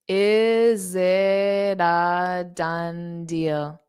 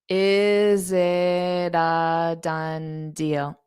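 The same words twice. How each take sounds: The two takes are said the same way.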